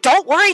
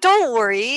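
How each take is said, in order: First: It is said in a curt, plain way. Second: It is said in a soft, kind way. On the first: "not like don't worry" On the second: "it was like just so kind"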